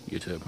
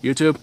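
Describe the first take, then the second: First: Muttered cop. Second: Puzzled cop. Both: Retold or imitated. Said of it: "they drive on and go".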